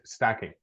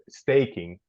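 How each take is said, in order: First: The first vowel does not sound like letter A. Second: The first vowel sounds like the letter name A. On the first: The speaker calls it right. "Sorry, it's stacking" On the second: The speaker calls it wrong. "A is an A. I'll say staking, right? No, not like that"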